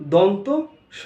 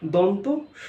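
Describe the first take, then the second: First: A short gap separates the two parts. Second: A short gap separates the two parts.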